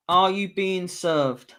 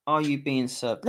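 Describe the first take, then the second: First: Slow, drawn-out reveal of the title; drawn-out answer reveal. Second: Said in the usual way. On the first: Shown as a demonstration. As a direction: stretch out "Are You Being Served?" like a big announcement. Reading out the quiz answer.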